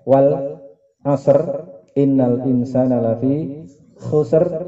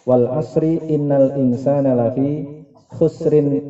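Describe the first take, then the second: First: Each verse ends in a stop on the R. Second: The verses run together with linking vowel endings. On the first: "membacanya harus dihentikan pada setiap ayatnya" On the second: "diajari dengan cara membaca"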